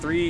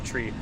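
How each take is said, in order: First: The word starts with a soft th sound. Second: The word starts with a hard t sound. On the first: This is the everyday way to say the number. "Instead of three" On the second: This is how the number is said in aviation radio talk. "is now tree. Well, that is how they say it"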